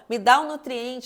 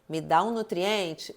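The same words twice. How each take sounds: First: It is shouted at full volume. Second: It is said louder than normal. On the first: The body demands desperately. "ele vai gritar" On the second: The body insists more strongly. "ele começa a falar mais alto"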